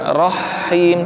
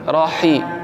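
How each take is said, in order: First: The h sound is held long and doubled. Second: The h sound is short and single. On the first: The speaker calls it wrong. "haknya jangan seolah-olah ada tasydidnya" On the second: The speaker calls it right. "Bukan rahim tapi rohi"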